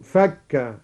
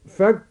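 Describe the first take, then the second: First: فك with fatha on the kaf; past-tense فك. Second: فك with damma on the kaf; nominative فك. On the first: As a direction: say فك as "fakka", falling. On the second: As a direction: say فك as "fakku", pitched slightly up. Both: Shown as a demonstration. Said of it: "فك على الماضي".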